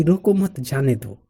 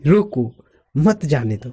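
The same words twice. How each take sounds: First: Group मत with रोको, then release on "जाने दो"; pause after मत. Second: "रोको" alone, then "मत जाने दो" together; group मत with "जाने दो"; pause after रोको. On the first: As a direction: lift "रोको मत", let "जाने दो" fall. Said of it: "मेरा मानना रहेगा कि". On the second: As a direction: break straight after रोको, before मत. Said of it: "सामने वाला बंदा समझ जाए कि". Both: Shown as a demonstration.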